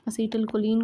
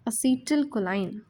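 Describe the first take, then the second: First: The final syllable is pronounced like 'leen'. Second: The final syllable is pronounced like 'line'.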